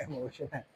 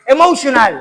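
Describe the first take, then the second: First: Emotional through a laugh, much softer. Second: Emotional said louder, a punchy fall on the end; emphatic Emotional. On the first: Real, not acted. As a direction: giggle out Emotional under the breath. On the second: Acted. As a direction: hit Emotional hard and drop it at the end. Preacher stresses the word, then laughs.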